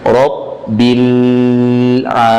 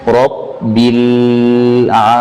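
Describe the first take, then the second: Both takes have the same delivery.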